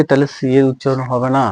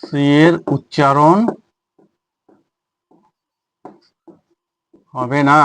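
First: Said in the usual way. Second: Drawn-out words with a long pause midway; slow, spaced phrases for note-taking; slow dictation. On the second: Shown as a demonstration. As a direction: dictate it at writing speed. Dictates the rule while writing.

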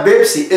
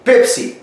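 First: "بيبسي" said with a voiced b, "bebsi"; the mistaken Arabic-style b at the start of "بيبسي"; wrong B sound. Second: "بيبسي" said with a puffed p, "pepsi"; higher, corrective "بيبسي" starting on a clear p; correct P sound. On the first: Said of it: "مفيش حاجة اسمها". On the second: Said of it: "اسمه بي-، بي-، بي". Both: Shown as a demonstration.

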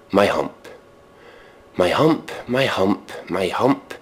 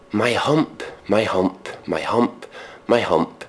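No difference in how they are said.

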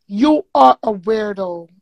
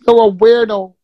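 First: "are" leaned on in a slow, spaced "You are a weirdo"; slow down and hit "are"; deliberate, emphatic repeat; stress on ARE. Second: Louder, punched-out "You're a weirdo"; loud insult. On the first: Repeats insult slower, stressing are. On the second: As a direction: throw "You're a weirdo" at her, full voice. Insulting the host in anger. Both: Real, not acted.

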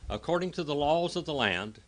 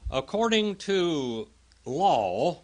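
First: Said in the usual way. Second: "according to law" drawn out slowly, louder, rising at the end; slow emphatic phrase. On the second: Shown as a demonstration. Teacher to Bible class, stressing the law slowly.

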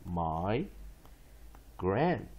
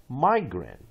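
First: "my", pause, then "grant"; syllable by syllable. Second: Said in the usual way. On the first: Shown as a demonstration. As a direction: split it into "my" and "grant" with a clear gap. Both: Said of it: "one more time".

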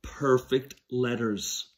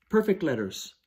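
First: "perfect" drawn out and falling; slow, stressed "perfect letters". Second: Said in the usual way. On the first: Shown as a demonstration. Teacher drawing out "perfect letters" for first graders, stressed. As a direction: lean on "perfect" slowly. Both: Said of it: "Those help us make".

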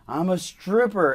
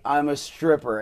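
First: Mock yell, higher and louder, drawn out; slow, raised-voice reenacted shout; retold yell. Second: Said in the usual way. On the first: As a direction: call it out slowly as if across a distance. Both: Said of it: "And I just yelled".

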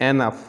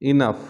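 First: এনাফ starting with an open "eh"; common mispronunciation. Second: ইনাফ starting with a short i; correct pronunciation. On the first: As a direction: say এনাফ as "eh-naf". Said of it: "common কিছু শব্দের". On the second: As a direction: say ইনাফ as "i-NUFF". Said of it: "ও সঠিক উচ্চারণ". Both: Shown as a demonstration.

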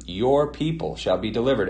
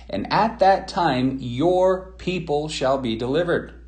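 First: Said in the usual way. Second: Slow and higher, leaning on "your people"; slow emphatic reading. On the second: Shown as a demonstration. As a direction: read it slowly, pressing each word of "your people shall be delivered". Stressing the key scripture phrase.

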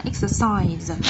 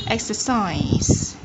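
First: EXERCISE ending on a buzzed Z; final Z sound. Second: EXERCISE drawn out slowly with a hissed S ending; final S sound. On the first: Teacher correcting the ending for learners, EXERCISE with final Z. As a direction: finish EXERCISE with a voiced Z. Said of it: "chúng ta sẽ điều chỉnh là âm Z". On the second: Teacher first showing learners the ending, EXERCISE with final S. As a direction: end EXERCISE on a voiceless S. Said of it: "dấu hiệu của âm S". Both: Shown as a demonstration.

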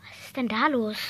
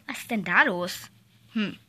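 First: Much lower, quieter teacher voice; stern teacher. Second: Much lower, softer teacher voice; stern teacher. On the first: Teacher asks the rowdy class what's happening, low and stern. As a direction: drop low like a teacher checking the noise. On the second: Teacher asks the noisy kids what's going on, deep and quiet. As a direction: sink deep into a grown-up's question. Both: Acted.

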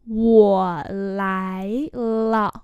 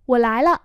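First: Sustained syllables; slow model for learners; slow demonstration. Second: Said in the usual way. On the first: Shown as a demonstration. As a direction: stretch each tone out. Teacher repeats phrase slowly.

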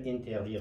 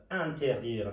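First: "اینتردیر" starting with EEN as spelt; wrong EEN reading. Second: "انتردیر" starting with AN, not EEN; correct AN reading. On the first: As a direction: close the first vowel of "اینتردیر" to EE. («اینتردیر» با صدای این، تلفظ نادرست) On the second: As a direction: open the first vowel of "انتردیر" to a short A. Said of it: "به دلیل ا تلفظ شده". («انتردیر» با صدای اَن، تلفظ درست) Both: Shown as a demonstration.

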